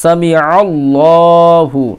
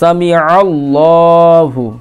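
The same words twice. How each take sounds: First: It has a throaty ain sound before 'allah'. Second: The same.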